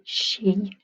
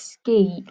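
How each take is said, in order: First: The word is said with a German pronunciation. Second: The word is said with an English pronunciation. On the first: The speaker calls it right. "but you pronounce it Ski" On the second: The speaker calls it wrong. "it looks like ski, like in English"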